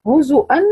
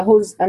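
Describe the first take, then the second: First: هزؤا said "huzu'an", u after the z; two short u sounds in هزؤا, then hamza; voweled zay. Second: هزءا said "huz'an", no vowel after the z; silent zay. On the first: Teacher quizzing students on the reading, هزؤا with a voweled zay. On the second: Teacher quizzing students on the reading, هزءا with a silent zay. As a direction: close the z straight onto the hamza in هزءا. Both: Shown as a demonstration. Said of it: "وكمان سكن الزا".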